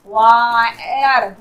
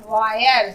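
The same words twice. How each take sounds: First: Slow, low वायर as "waaa-yar"; drawn-out sounding out. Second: Said in the usual way. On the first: Shown as a demonstration. Teacher showing the I sound, वायर slowly sounded out. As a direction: stretch वायर into two long parts. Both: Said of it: "आई का sound आई के रूप में".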